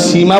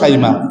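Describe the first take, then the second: First: The first vowel is a long 'ee' sound. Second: The first vowel is an 'ai' sound. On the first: The speaker calls it wrong. "বলেও ঠিক না" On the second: The speaker calls it right. "সঠিক উচ্চারণ হলো সাইমা"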